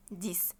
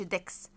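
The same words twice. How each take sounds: First: "ديس" with "ee" and final S; correct French "dix". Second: "ديكس" with a sounded KS ending; wrong French "dix". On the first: Teacher models number ten for students, French "ديس". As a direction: say "ديس" as "dees", no K. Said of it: "الاكس ما قلش ديكس". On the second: Teacher shows students the wrong number ten, "ديكس" with KS. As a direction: say "ديكس" with K before the S. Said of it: "ما قلش ديكس". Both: Shown as a demonstration.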